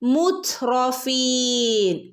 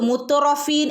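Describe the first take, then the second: First: The t runs straight into r, no vowel. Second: A vowel is inserted after the t sound. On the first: The speaker calls it right. "Half സുക്കൂന കൊടുക്കുക" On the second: The speaker calls it wrong. "എന്ന് ഓതരുത്"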